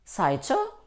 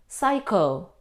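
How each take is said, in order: First: The ch letters sound like 'ch' in chair. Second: The ch letters sound like a 'k'. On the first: The speaker calls it wrong. "No. Though we see the combination C and H, we don't pronounce ch" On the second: The speaker calls it right. "we pronounce them k"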